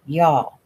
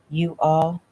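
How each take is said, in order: First: "y'all" run together as one word; one-syllable y'all. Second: "You all" as two distinct words; two separate words. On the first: Shown as a demonstration. Chaz correcting Lisa's Southern talk, "y'all" in one syllable. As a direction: contract it to a single Southern "y'all". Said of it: "You need to work on that one". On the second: Retold or imitated. Chaz mocking Lisa's attempt at Southern, "You all" unblended. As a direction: say "You all" fully, uncontracted, as a question. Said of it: "It's y'all".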